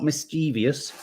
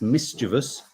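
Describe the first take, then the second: First: MISCHIEVOUS with four syllables, mis-CHEE-vee-us; wrong mischievous. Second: MISCHIEVOUS in three syllables, MIS-chuh-vus; correct mischievous. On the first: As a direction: add an extra EE to mischievous. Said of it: "not mischievous". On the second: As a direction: hit the first syllable of mischievous. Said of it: "it's mischievous". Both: Shown as a demonstration.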